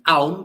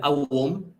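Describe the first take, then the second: First: The word is said in a shortened, reduced form. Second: The word is said in its full, longer form.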